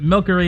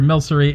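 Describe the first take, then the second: First: The middle consonant is a hard k sound. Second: The middle consonant is a soft s sound. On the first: The name comes from milk. "with the hard C sound for the, um, so it's more like milk" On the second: The name blends milk and sorcery. "a combination of milk and sorcery"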